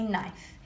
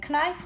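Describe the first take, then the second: First: The k at the start is silent. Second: The k at the start is pronounced. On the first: The speaker calls it right. "the kicking k is silent" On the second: The speaker calls it wrong. "We don't say"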